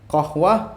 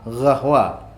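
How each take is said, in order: First: The word begins with a back-of-tongue 'q' sound. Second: The word begins with a throaty 'gh' sound.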